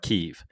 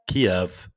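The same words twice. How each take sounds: First: It is said quickly in Ukrainian style. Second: It is said with a Ukrainian-style pronunciation. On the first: "if you say it quick, it sounds like" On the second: "The way the Ukrainians pronounce it is"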